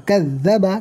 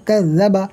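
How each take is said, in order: The two takes are said the same way.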